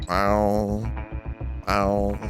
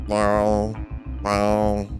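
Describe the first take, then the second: Both takes have the same delivery.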